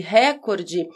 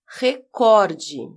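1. A tônica está na primeira sílaba. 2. A tônica está na segunda sílaba. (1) "se fosse recorde, ela seria uma proparoxítona" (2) "a sílaba cor é a mais forte. A pronúncia correta é, então, recorde"

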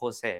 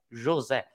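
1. Il nome è pronunciato con suoni spagnoli. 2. Il nome è pronunciato con suoni portoghesi. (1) "non mi chiamo José" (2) "mi chiamo José"

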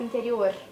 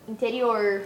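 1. O R é feito com a língua trêmula. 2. O R é prolongado e curvado para trás. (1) "a gente fala tipo interior. Porque a nossa língua ela treme" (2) "Porque interior é tipo, interior"

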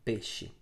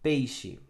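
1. A primeira sílaba tem a vogal e simples. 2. A primeira sílaba tem o ditongo ei.

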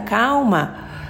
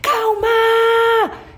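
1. A palavra é dita suavemente e com calma. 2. A palavra é gritada em alto volume. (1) "Mas aqui é calma" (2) "quem tá pedindo calma gritando"

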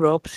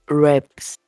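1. A vogal é um som de 'o'. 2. A vogal é um som de 'a'. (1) "Não se chamam Rops" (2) "chama-se Raps. Com A"

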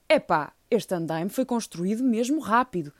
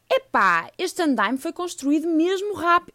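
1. É dita numa voz mais normal e natural. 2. É dita numa voz fingida e estranha. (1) "Vou tentar uma voz menos estranha" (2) "Se calhar não iam dizer assim"

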